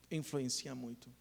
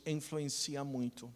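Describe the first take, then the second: No difference in how they are said.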